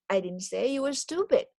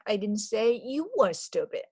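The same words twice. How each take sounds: First: The stress falls on the word stupid. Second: The stress falls on the word you. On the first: The person was called something other than stupid. "but something else" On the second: Someone else was the one called stupid. "Maybe somebody else was stupid, or anybody else but you are stupid"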